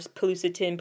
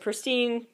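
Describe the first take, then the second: First: The name is said with extra vowels between consonants. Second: The name is said with no added vowels. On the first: "which is in Korea, they call it like Pilucetine" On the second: "however you want to say it"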